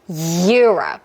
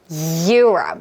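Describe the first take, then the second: The two takes are said the same way.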